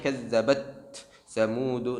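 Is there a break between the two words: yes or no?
yes. The two words are cut apart with a break. The speaker calls it wrong. "Bukan kazzabat Tsamud, tidak boleh"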